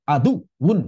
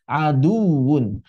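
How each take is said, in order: First: The sound is cut off in the middle. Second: The sound flows smoothly through the middle. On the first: The speaker calls it wrong. "Tidak seperti itu" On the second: The speaker calls it right. "Mesti tetap mengalir"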